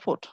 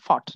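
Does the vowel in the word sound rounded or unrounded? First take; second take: rounded; unrounded. First: The vowel is said with rounded lips. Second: The vowel is said short and unrounded. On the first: The speaker calls it right. "কিন্তু উচ্চারণটা ফুট" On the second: The speaker calls it wrong. "আপনি জানেন ফট"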